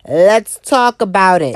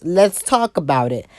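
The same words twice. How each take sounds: First: Louder and slower. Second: Said in the usual way. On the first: Acted. Vlogger kicking off the rant, louder and slower. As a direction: punch it out louder and slower the second time. Repeats catchphrase, second louder.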